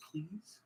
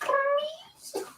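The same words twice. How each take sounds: First: Soft, slightly raised pleading question; small plea. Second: Very high cartoon plea; Roger Rabbit. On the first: Retold or imitated. Man begging partner over a cat name, soft plea. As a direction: ask it in a small, quiet voice. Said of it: "I'm like". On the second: Man attempting a cartoon rabbit's plea, very high squeak. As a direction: beg in a squeaky, badly faked cartoon voice. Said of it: "I can't do a Roger Rabbit voice".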